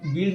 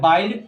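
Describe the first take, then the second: First: The vowel is a short i sound. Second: The vowel is a long ai diphthong. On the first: The speaker calls it wrong. "अब बिल्ड ना है बाइल पढ़ना है" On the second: The speaker calls it right. "तो यह है बाइल्ड"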